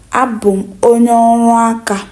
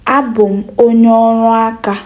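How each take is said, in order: Both takes have the same delivery.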